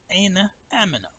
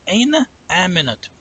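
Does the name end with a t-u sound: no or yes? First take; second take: no; yes. First: The name ends in a soft h sound. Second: The name ends with a t and u. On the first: "it's pronounced as the ha" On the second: "If you pronounce it, then it'll be Aminatu"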